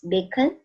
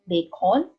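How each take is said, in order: First: The second syllable has a weak uh vowel. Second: The second syllable has a clear O vowel. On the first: The speaker calls it right. "it's bacon. So it sounds like a, a sound. It has a U sound in it" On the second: The speaker calls it wrong. "it's not bacon"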